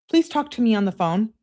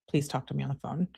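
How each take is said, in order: First: Higher acted begging; mock-needy girlfriend plea; pleading. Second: Low, soft, quick read; hushed, rapid quote; offhand citing. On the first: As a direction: plead for a phone call. Acts out the plea. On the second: Retold or imitated. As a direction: cite the message quickly under the breath. Cites the message being questioned.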